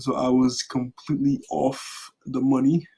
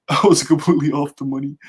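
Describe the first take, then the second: First: Said in the usual way. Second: Laughing at his own mistake; amused retake while laughing. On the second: Real, not acted. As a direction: say it through a laugh, louder. Repeats the same line laughing.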